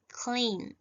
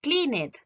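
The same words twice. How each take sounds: First: "cleaned" in one syllable, cleend; "cleaned" as CLEEND, no extra syllable. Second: "cleaned" in two syllables, clean-ed; "cleaned" misread as CLEE-net; wrong -ed pronunciation. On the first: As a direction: end "cleaned" on a D, with the E silent. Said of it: "Yo voy a decir". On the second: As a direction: sound the E in "cleaned" as a full eh. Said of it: "yo no voy a decir". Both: Shown as a demonstration.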